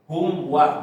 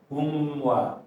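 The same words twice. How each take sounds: First: The m moves straight into the w. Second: The m is held long with a nasal hum. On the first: The speaker calls it right. "langsung pindah em langsung ke waw" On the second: The speaker calls it wrong. "Terlalu lama menyebabkan ada dengung"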